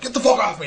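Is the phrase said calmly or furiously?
furiously. It is shouted in a furious tone. The request is an aggressive demand. "I didn't say it like that. I was like, ... Hulk mode!"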